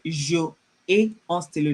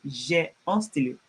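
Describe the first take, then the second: First: "Je ai" as two separate syllables, zhuh then ay; uncontracted wrong form. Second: "J'ai" run together as one syllable, zhay; contracted correct form. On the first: French teacher shows class what not to say, "Je ai" unjoined. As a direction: keep "Je" and "ai" apart, no elision. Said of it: "I won't say". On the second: French teacher gives class the correct form, "J'ai" joined. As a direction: elide it into a single "J'ai", lower and settled. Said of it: "No, I will say". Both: Shown as a demonstration.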